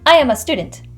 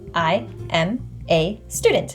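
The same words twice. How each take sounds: First: The sentence is said quickly with a reduced vowel. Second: The sentence is said slowly with a full vowel. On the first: "when I speak quickly" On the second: "if I say it slowly"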